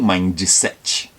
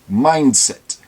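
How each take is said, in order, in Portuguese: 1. Um som de vogal extra vem depois da consoante final. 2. A palavra termina limpa, na consoante final. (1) "não mindset" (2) "Então é mindset"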